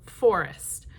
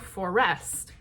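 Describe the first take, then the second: First: The stress is on the first syllable. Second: The stress is on the second syllable. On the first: The speaker calls it right. "That very first syllable of that word is the strong beat" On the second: The speaker calls it wrong. "we don't go forest"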